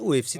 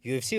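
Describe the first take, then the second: First: The first letter is said as 'oo'. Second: The first letter is said as 'yoo'. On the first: This is how it is said in Turkey. "у эф си Туркия" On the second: This is how it is said in Russia. "ю эф си Россия"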